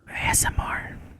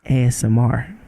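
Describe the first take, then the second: First: It is said in a lower whisper. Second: It is said in a normal voice.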